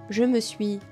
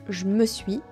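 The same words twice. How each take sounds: No difference in how they are said.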